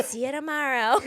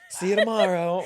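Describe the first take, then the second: First: Laughing botched impression; failed Jennifer Coolidge attempt. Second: High, loud, laughing goodbye; breezy celebrity exit line; mock star farewell. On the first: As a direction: try her voice and fail. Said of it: "I can't do it". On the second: Cohost playing Jennifer Coolidge leaving, breezy goodbye. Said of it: "she would just walk off".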